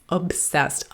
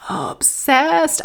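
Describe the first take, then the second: First: Said in the usual way. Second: OBSESSED pitched way up and drawn out; emphatic OBSESSED. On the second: Real, not acted. Mother on her son's war craze, "obsessed" high and emphatic. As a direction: exaggerate "obsessed" with a high, stretched second syllable. Repeats word to intensify it.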